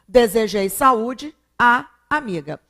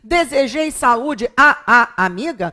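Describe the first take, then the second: First: A single merged 'a' sound is said before amiga. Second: Two separate 'a' sounds are said before amiga. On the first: The speaker calls it right. "eu fundo os dois, e dessa fusão eu tenho o acento" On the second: The speaker calls it wrong. "Para que eu não tenha que falar assim"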